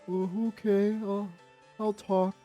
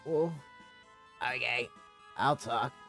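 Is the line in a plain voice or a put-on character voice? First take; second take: put-on; plain. First: It is said in a put-on character voice. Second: It is said in the speaker's plain voice. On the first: The speaker calls it right. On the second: The speaker calls it wrong.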